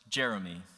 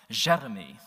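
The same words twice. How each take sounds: First: It is said with an English accent. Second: It is said with a French accent.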